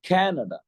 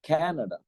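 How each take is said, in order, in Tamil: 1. வார்த்தை முழுவதும் ஏறி, பின்னர் இறங்குகிறது. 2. வார்த்தை முழுவதும் ஏறி, பின்னர் இறங்குகிறது.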